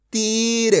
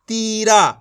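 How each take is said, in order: First: तीर ending on a half-sounded र, no आ; half final consonant. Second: तीरा with a full आ added after र; mispronunciation demo. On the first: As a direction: hold the ई in तीर, close on a bare र. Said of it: "उसका उच्चारण आधा करना है". (तीर, आख़िरी र आधा) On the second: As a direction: open the ending of तीरा into a long आ. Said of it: "तो ये गलत हो जाएगा". (तीरा, आख़िर में पूरा आ) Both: Shown as a demonstration.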